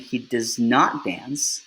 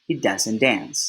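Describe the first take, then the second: First: The words does and not are said separately. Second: The words does and not merge into doesn't. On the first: "Instead of saying" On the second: "it is probably more common to hear and say"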